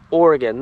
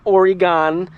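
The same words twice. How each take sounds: First: "Oregon" with a short, unstressed final gun; correct local pronunciation. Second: "Oregon" with a full, stretched GONE at the end; mispronunciation demo. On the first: Vlogger teaching viewers the local way, "Oregon" ending in a weak gun. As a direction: say "Oregon" as OR-ih-gun, falling at the end. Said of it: "this word here is pronounced". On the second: Vlogger showing viewers the wrong way, "Oregon" ending in a stressed GAHN. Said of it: "If you pronounce it Oregon". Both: Shown as a demonstration.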